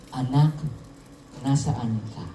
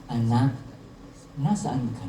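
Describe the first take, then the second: No difference in how they are said.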